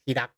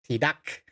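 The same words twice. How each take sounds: First: The final K is not released. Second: The final K is strongly released. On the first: The speaker calls it right. "It's not a strong K" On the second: The speaker calls it wrong. "It's not tidak"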